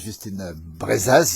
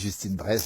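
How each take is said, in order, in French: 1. La syllabe finale '-az' est prononcée à voix haute. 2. La syllabe finale '-az' est muette. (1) "on ne dit pas Justine Brezaz" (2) "Ici, on dit Justine Braise"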